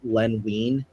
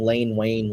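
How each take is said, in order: First: The names have short vowels, like 'Len Wine'. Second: The names have long 'ay' vowels, like 'Lane Wayne'. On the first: This is the name's real pronunciation. The speaker calls it right. "L E N, last name W E I N" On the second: Someone else mispronounced it this way. The speaker calls it wrong. "he kept saying Lane Wayne"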